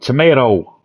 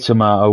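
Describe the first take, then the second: First: It is said in an American accent. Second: It is said in a British accent. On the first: "like tomato" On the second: "We say tomato"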